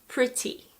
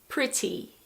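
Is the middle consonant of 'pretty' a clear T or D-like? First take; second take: clear T; clear T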